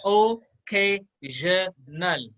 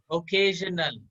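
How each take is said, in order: First: ओकेजनल slowly, one syllable at a time. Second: Said in the usual way. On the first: Shown as a demonstration. Teacher repeating the drill for students, syllable by syllable. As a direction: pause after each syllable of ओकेजनल: o, kay, zhuh, nal. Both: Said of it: "इसको कैसे pronounce करोगे".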